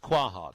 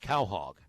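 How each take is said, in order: First: The word begins with a 'kwa' sound. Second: The word begins with a 'cow' sound. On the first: The speaker calls it wrong. "I thought it was" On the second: The speaker calls it right. "the correct pronunciation"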